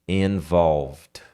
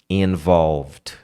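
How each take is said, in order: The two takes are said the same way.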